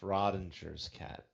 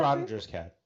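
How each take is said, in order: First: It is said slowly and drawn out. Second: It is said at a normal speed.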